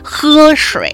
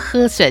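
First: Northern mainland accent, resonance placed deep in the throat. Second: Taiwanese accent, resonance placed forward at the lips.

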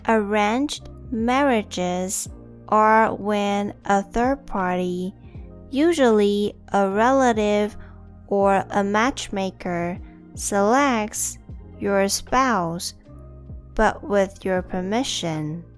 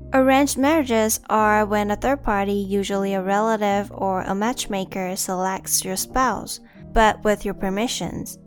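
First: It is said slowly. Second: It is said at normal speed.

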